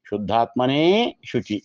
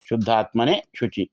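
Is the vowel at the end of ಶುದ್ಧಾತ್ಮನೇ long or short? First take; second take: long; short. First: The emphatic final vowel is long. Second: The emphatic final vowel is short. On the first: "ದೀರ್ಘವು" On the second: "ಹ್ರಸ್ವವೂ"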